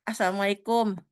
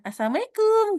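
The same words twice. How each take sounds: First: Said in the usual way. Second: Assalamualaikum sung out much higher and louder; shrill-free high cheerful Assalamualaikum, higher and louder; high, loud greeting. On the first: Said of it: "Bedain kayak tadi". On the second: Shown as a demonstration. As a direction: call Assalamualaikum out brightly, pitched way up and louder. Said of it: "kayak gitu aja udah beda ya".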